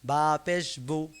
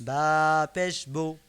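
The two takes are said the same way.

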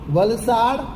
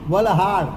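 First: The middle consonant is an s sound. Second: The middle consonant is an h sound.

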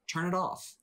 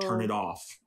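First: The voice is at a normal pitch. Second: The voice is dropped very deep and low. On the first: "In the same exact repetitive way she just said it" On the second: "her voice drops like 5 octaves"

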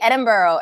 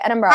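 First: The ending is full, like borough. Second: The ending is quick and reduced. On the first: The speaker calls it wrong. "like borough" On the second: The speaker calls it right. "throw it away"

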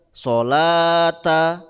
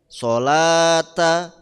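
No difference in how they are said.

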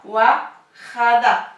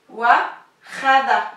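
Both takes have the same delivery.

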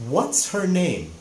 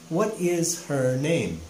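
First: What and is are joined into one contracted word. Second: What and is are said as two full words. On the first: It is a casual, informal way to ask. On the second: It is a more formal way to ask.

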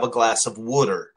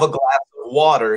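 First: It is said in a Baltimore accent. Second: It is said in a standard American accent. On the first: "you have a glass of water" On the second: "You don't have a glass of water"

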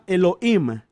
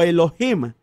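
First: The h is silent. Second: The h sounds like a harsh throaty j.

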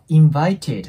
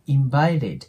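First: The middle consonant is a clear t sound. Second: The middle consonant is a light flap sound. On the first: "invited って発音するよりも" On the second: "t の音はラ行に変換する"

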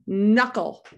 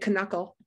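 First: The word starts with an N sound and no K. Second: The word starts with a K sound before the N. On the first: The speaker calls it right. "with silent K" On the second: The speaker calls it wrong. "we don't say knuckle"

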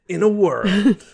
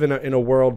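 First: It is said in a deep, dramatic trailer voice. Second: It is said in a normal conversational voice.

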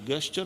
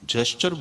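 First: The word begins with a hard G sound. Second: The word begins with a J sound. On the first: The speaker calls it wrong. "ગેસ્ચર નહીં બોલવાનું" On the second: The speaker calls it right. "જેસ્ચર બોલવાનું"

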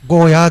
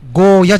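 First: The final vowel is drawn out long. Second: The final vowel is short. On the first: The speaker calls it right. "ゴーヤーです" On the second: The speaker calls it wrong. "ゴーヤじゃないです"

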